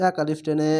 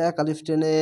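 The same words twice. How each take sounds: The two takes are said the same way.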